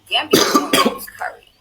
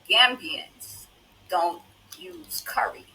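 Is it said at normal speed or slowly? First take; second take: normal; slowly. First: It is said at a normal speed. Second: It is said slowly and deliberately.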